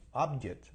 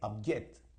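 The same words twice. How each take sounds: First: The stress is on the first syllable. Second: The stress is on the second syllable. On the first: It is a noun meaning a goal. "La fuerza del acento va en la primera sílaba" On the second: It is a verb meaning to oppose. "Object en la segunda sílaba"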